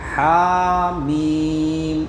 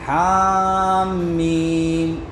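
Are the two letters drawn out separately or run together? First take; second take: drawn out; run together. First: Each letter is drawn out long and separately. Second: The two letters are run together quickly. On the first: The speaker calls it right. "हा को अलग खींचना है, ... मीम को अलग खींचना है" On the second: The speaker calls it wrong. "हम इसको पढ़ते कैसे हैं?"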